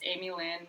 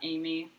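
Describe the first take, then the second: First: The name is said with three syllables. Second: The name is said with two syllables. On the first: The speaker calls it right. "You can please have that third syllable there" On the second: The speaker calls it wrong.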